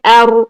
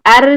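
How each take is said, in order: First: The r is heavy and full. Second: The r is light and thin. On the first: The speaker calls it right. "तो अभी यहाँ पर हम मोटी रॉ को अदा करेंगे" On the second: The speaker calls it wrong. "एर करने से बारीक रॉ अदा हो रही है और ये मखरज गलत हो जाएगा"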